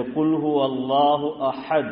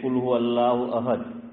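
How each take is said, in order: First: احد with a strong throaty big ha; heavy ha. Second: احد with a light, ordinary h; unpractised ha. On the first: Teacher showing the correct verse, big ha articulated. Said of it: "بڑی ہا ہے". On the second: Teacher showing the untrained reading, light h in احد. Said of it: "اکثر وہ مشق نہیں کی". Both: Shown as a demonstration.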